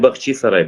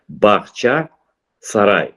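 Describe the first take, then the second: First: The first part ends with an 'ee' vowel. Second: The first part ends with an 'ah' vowel. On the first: This is the Russian-derived form. The speaker calls it wrong. "Це не Бахчі-Сарай" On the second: This is the original Crimean form. The speaker calls it right. "Який Бахчі-Сарай? Бахча-Сарай"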